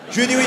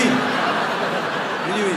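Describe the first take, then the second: First: Said in the usual way. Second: Slow, whispered admission; hushed repeat. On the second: Retold or imitated. Comedian confesses he let the wrong name stand, hushed and sheepish. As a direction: repeat it under your breath, drawn out.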